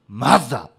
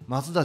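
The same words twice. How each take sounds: First: The name is said with English sounds, Mazda. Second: The name is said with Japanese sounds, Matsuda. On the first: The speaker calls it right. "全然発音がちゃうって" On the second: The speaker calls it wrong. "マツダちゃう"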